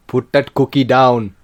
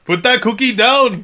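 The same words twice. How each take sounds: First: Slow, low Arnie voice; Arnold Schwarzenegger impression. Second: Loud, high attempt at Arnie; Arnold Schwarzenegger impression. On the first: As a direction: growl it like Arnie. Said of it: "Can you do one?". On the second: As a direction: shout it like Arnie. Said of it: "can't do an Arnold Schwarzenegger".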